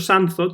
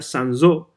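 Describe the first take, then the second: First: The name is given a Spanish pronunciation. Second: The name is given a French pronunciation. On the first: This is how a Spanish reader says it. "Yo siempre he dicho Sanzot al leerlo en, en español" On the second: This is how it would be said in the original language. "en francés se pronunciaría Sanzot"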